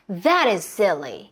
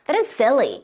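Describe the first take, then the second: First: "That" is said clearly with more emphasis. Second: "That" is said quickly and lightly. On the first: "조금 더 강조하냐 안 하냐요" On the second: "빠르게 갈 수도 있어요"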